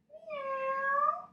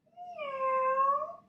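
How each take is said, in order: First: High rising kitty meow; cat meow. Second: High rising kitty meow again; cat meow. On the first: Yoga teacher meowing like a cat for the kids. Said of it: "meow like a normal cat". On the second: Yoga teacher meows again with the kids. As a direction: give a sweet little cat's meow. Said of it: "one more time". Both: Shown as a demonstration.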